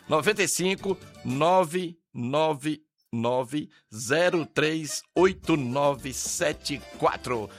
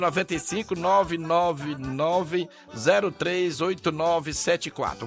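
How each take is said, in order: First: The number is said slowly and calmly. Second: The number is said at a quicker pace.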